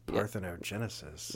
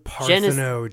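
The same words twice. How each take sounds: First: It is said in a sultry, sexy voice. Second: It is said in a plain, normal voice.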